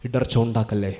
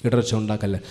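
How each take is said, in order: Both takes have the same delivery.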